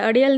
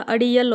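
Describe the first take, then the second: First: अड़ियल run together as "a-De-al"; wrong vowel demo. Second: अड़ियल with clear "i-yal"; correct vowel demo. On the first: Teacher shows the mistake, अड़ियल said as "a-De-al". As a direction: say अड़ियल without the "iy" glide. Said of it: "अड़ियल नहीं होता". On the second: Teacher corrects it, अड़ियल said as "a-Di-yal". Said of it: "होता है". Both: Shown as a demonstration.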